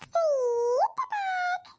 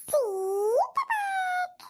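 First: High stretched whiny cry; childish wail. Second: High drawn-out whiny cry; childish wail. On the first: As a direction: bawl it out like a toddler. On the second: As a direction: wail it like a bawling toddler. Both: Acted. Grandson crying to granny for sweets, long high wail.

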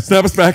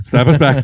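First: Much higher, louder repeat. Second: Louder call to snap back. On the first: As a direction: shout it again, higher. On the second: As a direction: call it out loud. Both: Real, not acted.

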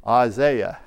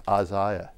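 First: British-style "Isaiah" with ZAY in the middle; British accent. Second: Said in the usual way. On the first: Shown as a demonstration. Preacher offering the congregation "Isaiah" in a British accent. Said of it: "if I say it with that British accent". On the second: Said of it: "the way I normally say it".

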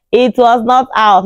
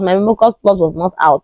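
First: "not"을 느리고 높게 힘줘서; "not"을 천천히 또렷하게 강조; stress on not. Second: Said in the usual way. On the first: Shown as a demonstration.

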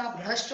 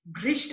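First: Said in the usual way. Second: भ्रष्ट said "bhrisht"; wrong vowel. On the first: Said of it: "होता है". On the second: Shown as a demonstration. Teacher correcting a mistake, भ्रष्ट as "bhrisht". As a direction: put "bhri" for "bhra" in भ्रष्ट. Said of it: "नहीं होता".

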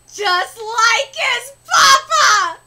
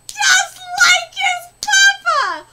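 First: Loud, slow crying shriek; gasping shriek. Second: High, loud, slow crying shriek; higher shriek. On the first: Fan shrieking at a son resembling his father, overjoyed. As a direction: shriek in delight. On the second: Fan shrieking again at the resemblance, overjoyed. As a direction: shriek even higher in delight. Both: Real, not acted.

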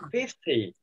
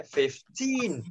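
First: "fifty" with FIF hit, short falling "ty"; stress on first syllable. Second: "fifteen" said slowly, second syllable long and lifted; stress on TEEN. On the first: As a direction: punch FIF and drop the end of "fifty". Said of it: "còn thằng này fifty". ("fifty" nhấn âm đầu, âm "ty" ngắn) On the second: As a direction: contrast it by stretching TEEN in "fifteen". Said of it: "Trọng âm nó vào âm tin". ("fifteen" đọc chậm, nhấn âm "teen") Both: Shown as a demonstration.

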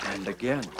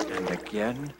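The two takes are said the same way.

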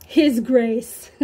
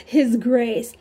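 Both takes have the same delivery.

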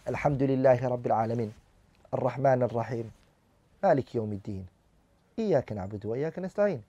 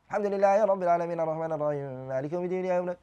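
First: Fast, lower, careless Fatiha; careless recitation. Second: Fast, hurried Quran recitation; rushed recitation. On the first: Teacher showing class how not to recite. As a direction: hurry through the verses without care. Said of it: "One should not read like that". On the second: Teacher showing students the wrong, rushed recitation. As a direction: rattle off the verses. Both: Shown as a demonstration.

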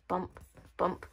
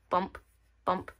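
The two takes are said the same way.

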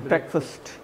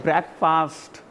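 First: Breakfast said "BREK-fust", lower and softer; correct pronunciation. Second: Breakfast drawn out slowly as "brek-FAAST"; wrong pronunciation. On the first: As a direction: reduce the second vowel of breakfast to a short "uh". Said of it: "I am using the word". (breakfast को "ब्रेकफ़स्ट" बोलें, छोटे "फ़स्ट" के साथ) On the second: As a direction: stretch the end of breakfast into a long "faast". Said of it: "not breakfast". (breakfast को खींचकर "ब्रेक-फ़ाऽस्ट" बोलें) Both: Shown as a demonstration.

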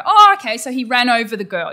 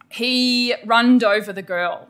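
First: Teacher recasting "runned" as "ran"; corrected syntax. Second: Put-on runned said slowly as a child's error; "runned" drawn out like a student's mistake; slow "He runned over the girl"; wrong past tense. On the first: Shown as a demonstration. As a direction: model the fix, landing on "ran". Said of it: "then you can go". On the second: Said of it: "when someone says".

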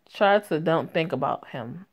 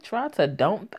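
First: Said in the usual way. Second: "Try to don't" thrown back as a question; puzzled echo. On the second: Real, not acted. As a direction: repeat "Try to don't" in disbelief, as a query. Echoes the bad grammar, puzzled.

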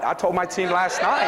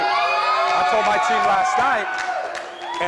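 First: Said in the usual way. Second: Slow shout. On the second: Real, not acted. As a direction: hammer the line slowly to the crowd. Repeated, slower, shouted.

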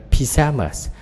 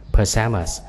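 First: PYJAMAS with a clear "pi", higher; British pronunciation. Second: PAJAMAS with a reduced "puh" start; American pronunciation. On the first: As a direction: say "pyjamas" as pi-JA-mas, British style. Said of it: "tiếng Anh Anh là pyjamas". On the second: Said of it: "Anh Mỹ sắp trước". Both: Shown as a demonstration.

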